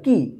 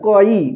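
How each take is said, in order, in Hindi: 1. व्यंजन और स्वर आपस में जुड़कर बोले जाते हैं। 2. व्यंजन और स्वर अलग-अलग बोले जाते हैं। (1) "एक साथ उच्चारण होगा" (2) "क ई मत पढ़िएगा, क ई गलत हो जाएगा"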